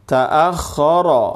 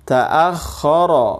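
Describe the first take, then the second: Both takes have the same delivery.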